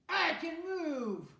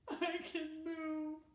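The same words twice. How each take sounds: First: It sounds angry. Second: It sounds sad.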